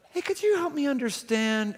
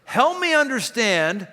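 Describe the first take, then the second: First: Higher, soft friendly could you help me understand; invite, don't accuse; gentle request. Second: Slow accusing Help me understand; demanding tone. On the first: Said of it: "same exact words coming from the same person". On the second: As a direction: press them with it. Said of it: "immediately putting me on my heels". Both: Shown as a demonstration.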